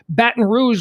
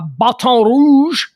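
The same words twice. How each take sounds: First: It is said the American English way. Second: It is said in a non-American way. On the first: The speaker calls it right. "is how we say it in American in the English language" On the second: The speaker calls it wrong. "I just pronounced it incorrectly"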